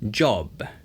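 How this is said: A British accent, with a rounded 'o' vowel. "영국식으로 할 때는 ... 아 발음에서 오 발음으로"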